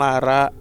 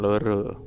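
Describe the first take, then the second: First: The vowels are pronounced as an open 'a'. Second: The vowels are pronounced as a rounded 'o'. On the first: The speaker calls it right. "Ndas nyong lara gitu" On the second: The speaker calls it wrong. "Bukan loro"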